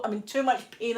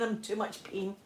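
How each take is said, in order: First: Said in the usual way. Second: "I'm in too much pain" said again, much softer, fading; softer repeat. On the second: Retold or imitated. She begs the midwives for an epidural, quieter second time. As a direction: drop to a pained hush on the repeat.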